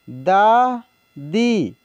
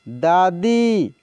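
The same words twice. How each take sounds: First: दादी drawn out very slowly, sound by sound; slow dictation of दादी; slow spelled-out reading. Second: Said in the usual way. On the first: Shown as a demonstration. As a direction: stretch दादी for the learners. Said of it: "teacher reads word slowly". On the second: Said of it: "teacher says word normally".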